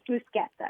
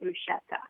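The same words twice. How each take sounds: First: The middle consonant is a hard k sound. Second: The middle consonant is a sh sound. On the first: This is how it is said in Italy. The speaker calls it right. "In Italy, it's bruschetta. ... it comes from the C H" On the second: This is how many people say it outside Italy. The speaker calls it wrong. "a lot of people pronounce it bruschetta. And it just makes me crazy"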